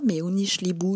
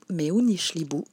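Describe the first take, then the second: First: It is said at a faster pace. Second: It is said slowly and gently. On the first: "Et un peu plus vite" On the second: "Tout doucement"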